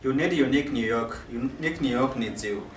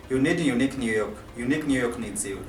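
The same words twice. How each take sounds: The two takes are said the same way.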